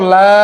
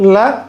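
First: The vowel is drawn out long. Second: The vowel is short and clipped. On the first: He will certainly not be imprisoned. "কেউ যদি টান দিয়ে পড়ে" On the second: He will certainly be imprisoned. "অবশ্যই তাকে কি করা হবে"

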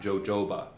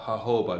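First: The word begins with a J sound. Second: The word begins with an H sound. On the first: The speaker calls it wrong. "not jojoba" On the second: The speaker calls it right. "that J is pronounced with an H sound, so you would call it jojoba"

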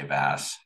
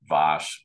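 First: The name has an anglicized pronunciation. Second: The name has its native European pronunciation. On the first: The speaker calls it wrong. "I'm going to slip up and say Vass" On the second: The speaker calls it right. "It's Vass"

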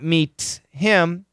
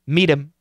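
First: The H in him is clearly pronounced. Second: The H is dropped and the T flaps. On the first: The speaker calls it wrong. "So it's not meet him" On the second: The speaker calls it right. "we get a flap T, which is this"

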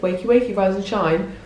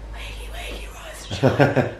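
First: It is said in a normal, clear voice. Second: It is said in a hoarse, voiceless croak.

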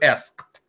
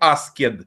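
First: The -ed is a bare t sound. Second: The -ed is said as a separate syllable. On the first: The speaker calls it right. "я читаю asked" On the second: The speaker calls it wrong. "я не читаю asked"

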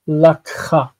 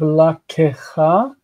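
First: No extra vowel is sounded in the middle. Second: An extra vowel is sounded in the middle. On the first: The speaker calls it right. "but we still say lakha" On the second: The speaker calls it wrong. "Instead of la kecha, ke, I know this is represented as a vocal shva"

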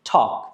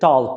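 First: No L sound is pronounced before the K. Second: An L sound is pronounced before the K. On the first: The speaker calls it right. "এটার pronunciation হবে ঠক" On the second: The speaker calls it wrong. "অনেকে টল্ক বলে, which is incorrect pronunciation"

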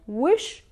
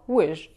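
First: The word ends with an sh sound. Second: The word ends with a j sound. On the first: This is how some Levantine regions say it. "they would say wish with sha at the end" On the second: This is how other Levantine regions say it. "they would say wish with ja at the end"

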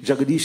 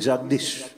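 First: The name is said with three syllables. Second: The name is said with two syllables. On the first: This is the full, proper form of the name. "Jagadish is a proper name and a proper pronunciation" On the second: This is the everyday way of saying the name. "Now we say Jagdish"

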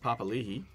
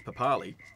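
First: The name is said in the longer form. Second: The name is said in the shorter form. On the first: This is how the name is said now. "now all of a sudden it's Papalihi" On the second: This is how the name was said for years. "for years and years and years it goes on as Papali"

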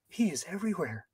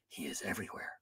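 First: It is said in a lighter, softer voice. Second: It is said in a deep, masculine voice.

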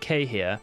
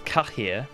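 First: The name is said the anglicized way. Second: The name is said the Nilfgaardian way. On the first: This is the pronunciation used for years before being corrected. "I would always pronounce it Kahir, and I did it for years" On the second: This is the pronunciation adopted after being corrected. "the Nilfgaardian pronunciation"

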